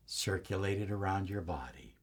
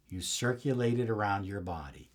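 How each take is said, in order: First: Soft unvoiced whisper, much softer; fully whispered meditation cue; whispered guidance. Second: Low, soft and unhurried; quiet voiced guidance, not yet a whisper; soft guiding voice. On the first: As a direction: let it drop to a breath. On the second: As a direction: ease the listener through it softly. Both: Shown as a demonstration. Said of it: "And as you breathe in".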